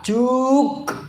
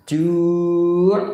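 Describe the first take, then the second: First: The word ends with a k sound. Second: The word ends with a throaty pharyngeal sound. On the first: The speaker calls it wrong. "Apalagi ka. Juk. Bukan" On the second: The speaker calls it right. "Ju' ain"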